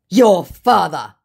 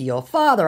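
First: Slow, loud, high put-on voice; sling it as a drawn-out scammer insult; hammed-up retort. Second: Said in the usual way.

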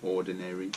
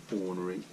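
First: "Ordinary" as /ɔɹdənɛɹi/, four full syllables; contrast word. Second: "Ornery" as /ɔɹnə˞i/, short and clipped; contrast word. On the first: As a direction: parent sets "Ordinary" against ornery. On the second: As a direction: say "Ornery" tight, three syllables. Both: Shown as a demonstration. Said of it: "That's a bit like stay ordinary".

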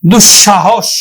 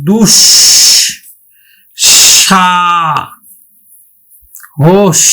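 First: দুঃসাহস as one word, dushshahosh; joined double sh. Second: Very slow দুঃসাহস in pieces, dush, sha, hosh; long pauses between syllables of দুঃসাহস, long sh sounds; split double sh. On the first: Teacher putting the word together, joined dushshahosh for দুঃসাহস. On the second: Teacher showing the letter said twice, very slow split দুঃসাহস. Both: Shown as a demonstration. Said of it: "আমরা উচ্চারণ করব".

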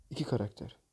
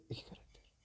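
First: Said in the usual way. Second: Hushed hopeful whisper; whispered plea for a character. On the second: Real, not acted. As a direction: breathe the wish under your breath. Hushed plea before box opens.

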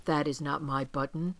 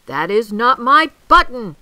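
First: Said in the usual way. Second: Loud, high shouted protest; angry shout. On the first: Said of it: "said Toad". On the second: A narrator's reading. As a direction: shout it in exasperation. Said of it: "shouted Toad".

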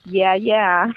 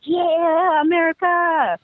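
First: Unenthusiastic. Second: High-pitched, drawn-out mock cheer; enthusiastic cheer. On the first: Acted. Older generation to Americans, imitated lukewarm response. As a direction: imitate grudging, unimpressed agreement. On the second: Young locals who love Americans, mock excited cheer. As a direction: imitate gleeful fans of America.

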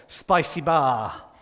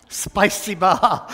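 First: Spicy bar said slowly, like spasibo; spicy bar stretched into spasibo; slow Russian. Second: Playful Russian-accent Spicy bar; hammed-up Russian. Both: Shown as a demonstration. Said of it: "my favourite of them all".

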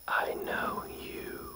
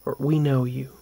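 First: Slow, voiceless breathy whisper. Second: Said in the usual way. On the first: Retold or imitated. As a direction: breathe each word slowly like a spirit. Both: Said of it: "It's like a breathy whisper".

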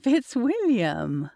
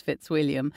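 First: Drawn-out, shocked cry of his name; a slower, higher protest, half laughing; scandalized exclamation. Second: Said in the usual way. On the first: A narrator's reading. Scandalized when pulled onto lap.

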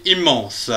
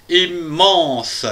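First: Said in the usual way. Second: "Immense" in slow, separated beats; "Immense" broken up and stretched out; syllable by syllable. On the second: Shown as a demonstration. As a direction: pause after the first syllable of "Immense". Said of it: "Trois syllabes".

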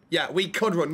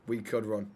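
First: Could pressed hard, falling after; stress on could. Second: Said in the usual way. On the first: Shown as a demonstration. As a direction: lean on could to correct him. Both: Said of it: "not we are running".

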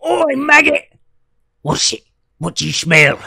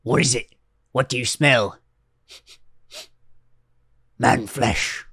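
First: Much higher, louder Lord of the Rings orc snarl; orc impression. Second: Quiet orc voice. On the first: Joking that British impressions are just orcs, a loud orc snarl. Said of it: "Just, just do an impression of an orc". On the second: Retold or imitated. Mocking a terf walking into a bathroom, a lightly voiced orc. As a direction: mutter it like a suspicious orc. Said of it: "Average terf when they walk into a bathroom".

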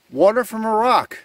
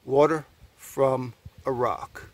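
First: Higher, wondering call-out; amazed exclamation. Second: Slow, word by word with pauses; slow wonder. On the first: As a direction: exclaim at a surprising find. Amazed at spring from rock. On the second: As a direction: let each part land separately. Repeats phrase word by word. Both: Real, not acted.

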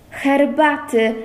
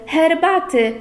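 First: Eager. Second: Higher, more urgent herbaty, falling at the end; eager. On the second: Lucek fussing over the fainted girl, more eager herbaty. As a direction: press the word herbaty harder, brighter. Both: A narrator's reading. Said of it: "zakrzątnął się Lucek gorliwie".

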